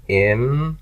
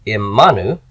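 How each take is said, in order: First: Imanu, each syllable held and set apart. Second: Imanu joined up, stress on the middle "ma". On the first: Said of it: "There's my nu ending". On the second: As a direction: punch the "ma" in Imanu. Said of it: "My accent is on the ma". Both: Shown as a demonstration.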